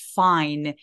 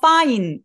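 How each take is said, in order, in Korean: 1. 첫 소리는 새어 나오는 바람 소리가 나요. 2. 첫 소리는 바람 마찰 없이 터져요.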